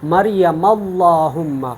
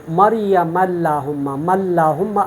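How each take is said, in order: First: "اللہم" with a heavy, dark L, drawn out slowly; full lam. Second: "اللہم" with a light, thin L; thin lam. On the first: Teacher shows students the پر reading, heavy L in "اللہم". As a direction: fill the mouth on the L of "اللہم". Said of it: "اگر میں اس کو پر پڑھوں گا". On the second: Teacher shows students the باریک reading, thin L in "اللہم". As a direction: keep the L in "اللہم" thin, not full. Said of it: "اب میں نے باریک پڑھا". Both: Shown as a demonstration.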